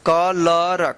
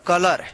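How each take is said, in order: First: कलर drawn out in separate syllables; slow teaching demo of कलर; sounded out slowly. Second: Said in the usual way. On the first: Shown as a demonstration. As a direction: stretch कलर into 'ka... lar'.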